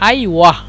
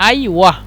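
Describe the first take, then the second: The two takes are said the same way.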